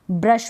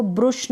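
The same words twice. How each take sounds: First: Said in the usual way. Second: ब्रुश with an oo vowel; wrong pronunciation. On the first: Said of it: "ब्रश पढ़ेंगे". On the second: Shown as a demonstration. Teacher rejects a reading of brush, mispronounced ब्रुश. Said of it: "इसको ब्रुश नहीं पढ़ेंगे".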